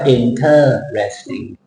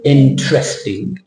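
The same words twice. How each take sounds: First: The middle 'er' syllable is fully pronounced. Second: The middle 'er' syllable is dropped. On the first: The speaker calls it wrong. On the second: The speaker calls it right.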